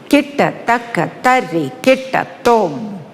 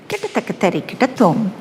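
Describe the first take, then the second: First: The syllables are recited in a stately, regal manner. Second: The syllables are recited in a lyrical, playful manner. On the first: This is the style of one dance form. "That is how it is uttered in Bharatanatyam with a lot of regality" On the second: This is the style of another dance form. "It's more lyrical. There's a sense of playfulness about it"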